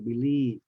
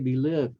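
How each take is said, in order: First: The last syllable has a long ee vowel. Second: The last syllable has a short vowel. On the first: The speaker calls it right. "So believe, feel, everything with the E" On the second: The speaker calls it wrong. "Don't say believe. I hear a lot of people saying believe, but uh, that's wrong"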